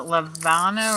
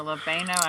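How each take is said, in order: First: Levano with an "ah" in the middle; unsure pronunciation. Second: Levano with an "ay" in the middle; alternative pronunciation. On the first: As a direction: try Levano as "luh-VAH-no". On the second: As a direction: try Levano as "luh-VAY-no". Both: Shown as a demonstration. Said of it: "I don't know how to say it".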